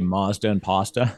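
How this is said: The words have an American vowel pronunciation.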